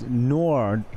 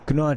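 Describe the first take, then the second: First: The name begins with an N sound. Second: The name begins with a K sound. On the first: The speaker calls it right. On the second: The speaker calls it wrong.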